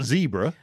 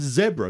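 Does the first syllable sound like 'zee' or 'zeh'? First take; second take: zee; zeh. First: The first syllable sounds like 'zee'. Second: The first syllable sounds like 'zeh'. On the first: The speaker calls it wrong. "not zebra" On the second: The speaker calls it right. "It's zebra"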